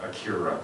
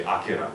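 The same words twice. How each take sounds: First: "Akira" stressed on the middle syllable; disfavoured Americanized pronunciation. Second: "Akira" stressed on the first syllable; preferred pronunciation. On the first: Actor showing the disrespectful way, "Akira" with middle-syllable stress. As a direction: lean on the KI of "Akira". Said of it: "not Akira". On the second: Actor showing the respectful way, "Akira" with first-syllable stress. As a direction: hit the A of "Akira", keep the rest light. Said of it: "we say Akira". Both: Shown as a demonstration.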